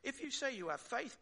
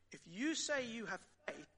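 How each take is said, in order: First: The words 'you say' carry no special stress. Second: The words 'you say' are strongly stressed.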